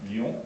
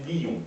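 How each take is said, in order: First: Said in the usual way. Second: "lion" split into two syllables, li-on; diaeresis. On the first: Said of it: "qu'on va prononcer lion". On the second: Shown as a demonstration. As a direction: pronounce "lion" as li-on, both vowels sounded. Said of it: "pas une syllabe en deux temps".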